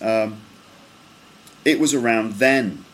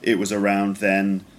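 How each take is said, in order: First: The pitch drops down on the last word. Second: The pitch stays level through the last word. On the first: The speaker calls it right. "it's kind of straight, and then it falls at the end" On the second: The speaker calls it wrong. "So completely flat, doesn't go up or down"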